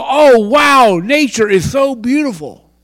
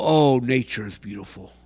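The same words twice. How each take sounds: First: Loud, high, gushing "Oh, wow"; mock gushing wonder. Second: Mild mock admiration. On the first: The wrong way to watch a sunset, gushing over nature. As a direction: gush like someone in awe of nature. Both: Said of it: "don't go".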